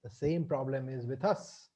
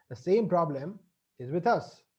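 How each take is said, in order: First: Said softly, dropping low; quiet, pensive. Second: Said in the usual way. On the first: Shown as a demonstration. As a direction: murmur it softer and lower as a sober thought.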